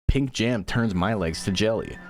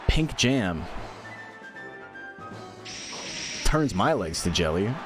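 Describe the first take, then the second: First: The sentence flows without a pause. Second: A pause splits the sentence in the middle. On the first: The speaker calls it right. "she's supposed to say" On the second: The speaker calls it wrong. "there's this weird pause in the middle of it"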